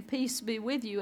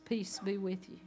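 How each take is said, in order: First: Said in the usual way. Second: A hushed, gentle "Peace be with you"; soft peace greeting. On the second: Acted. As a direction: breathe the blessing quietly. Jesus greets Thomas softly.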